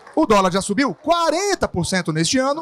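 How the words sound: The emphasis falls on quarenta por cento. The size of the rise is what matters. "Na segunda, a porcentagem"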